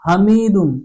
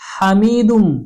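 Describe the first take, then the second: First: The h is a plain, light breath sound. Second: The h is a strong, throaty breath sound. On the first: The speaker calls it wrong. "यह गलत है" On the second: The speaker calls it right. "बड़ी हा है"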